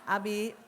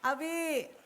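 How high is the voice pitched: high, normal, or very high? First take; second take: normal; high. First: The call is at a normal, pleasant pitch. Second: The call is pitched somewhat higher. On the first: The wife is calling sweetly the first time. "waktu ngomong Abi masih cantik" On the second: The wife is calling again after being ignored. "suaranya naik setengah oktav"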